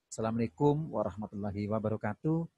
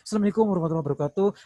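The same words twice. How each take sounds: First: It is said calmly and relaxed, without hurry. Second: It is said hurriedly and out of breath.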